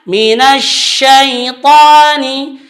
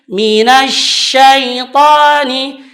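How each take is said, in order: Both takes have the same delivery.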